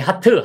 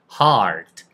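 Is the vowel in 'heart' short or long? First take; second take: short; long. First: The vowel is short and clipped. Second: The vowel is long, with a faint final t. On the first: The speaker calls it wrong. "이거 my heart 하지 마시고" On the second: The speaker calls it right. "heart을 길게 하시면 돼요"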